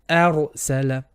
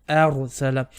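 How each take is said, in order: No difference in how they are said.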